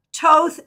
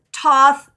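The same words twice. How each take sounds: First: "Toth" with a hard T and long O, rhyming with both; long-o pronunciation. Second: "Toth" with a hard T and open AW vowel; short-vowel pronunciation. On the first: Teacher listing names for the Crowley tradition, "Toth" with long O. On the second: Teacher offering another way to say it, "Toth" as TAWTH. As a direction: say "Toth" as TAWTH, set apart and emphatic. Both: Shown as a demonstration. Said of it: "depending on how you pronounce that".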